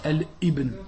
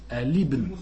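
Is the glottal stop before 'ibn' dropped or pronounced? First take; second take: pronounced; dropped. First: A glottal stop is pronounced before ibn. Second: The words are linked without a glottal stop. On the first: The speaker calls it wrong. "on ne dit pas Al Ibn" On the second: The speaker calls it right. "on dit Al Ibn"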